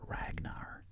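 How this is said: It is said with an American English accent. The speaker calls it wrong. "if you say the word Ragnar in like American English, it sounds horrible"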